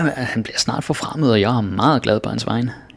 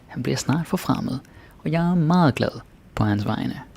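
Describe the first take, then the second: First: The sentence is spoken at a faster pace. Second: The sentence is spoken at a slower pace.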